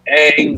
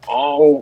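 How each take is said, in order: First: The vowel sounds like the one in cat. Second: The vowel sounds like the one in song. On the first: The speaker calls it right. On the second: The speaker calls it wrong.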